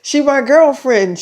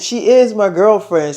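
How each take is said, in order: First: Said in the usual way. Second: "is" leaned on firmly; emphatic "is", rest falling away; stress on IS. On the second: Retold or imitated. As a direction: punch the word "is" to insist. Restates it, adding emphatic IS.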